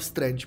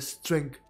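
First: The word ends with a 'j' sound, like 'strange'. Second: The word ends with 'ng' followed by a 'th' sound. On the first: The speaker calls it wrong. "A furt tomu říkám strange prostě" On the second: The speaker calls it right. "takže to je strength"

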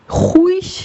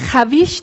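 First: A u sound follows the h. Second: An a and v sound follow the h. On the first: "Huiş veya haviş diye okumuyoruz" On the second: "Huiş veya haviş diye okumuyoruz"

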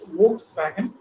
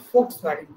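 First: The word begins with a V sound. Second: The word begins with an F sound. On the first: The speaker calls it wrong. "which we normally mispronounce as" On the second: The speaker calls it right. "It is actually"

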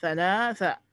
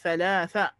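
Both takes have the same delivery.

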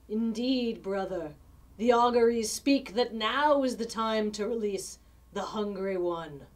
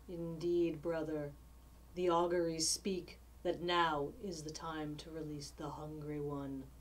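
First: It is said loudly. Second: It is said softly.

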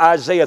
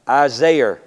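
First: It is said in the speaker's normal voice. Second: It is said in an imitated character voice.

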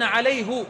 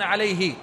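First: The pronoun is said with a u vowel. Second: The pronoun is said with an i vowel. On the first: This is the Hijaz dialect form. "يقولون عليه" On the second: This is the common standard form. "ولا يقولون عليه"

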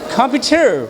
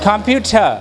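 First: The final r sound is clearly pronounced. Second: The final r sound is dropped. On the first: "আমেরিকানরা আর আর উচ্চারণ বেশি করে করে" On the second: "ব্রিটিশরা সাধারণত আর শেষে উচ্চারণটা করে না"

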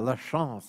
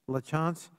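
First: The name is said in a French way. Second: The name is said in a Boston English way. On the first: "We could do it in French style" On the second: "I'm pronouncing it the way we would in Boston"

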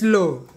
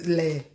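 First: The vowel sounds like 'oh'. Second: The vowel sounds like 'uh'. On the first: The speaker calls it right. "It's low" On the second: The speaker calls it wrong. "not le"

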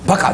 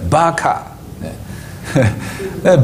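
First: The vowels are short. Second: The vowels are long. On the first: The speaker calls it wrong. "バカじゃないです" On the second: The speaker calls it right. "ヘブライ語で正しく発音するとバカーです"

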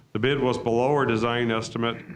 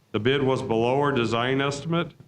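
The two takes are said the same way.

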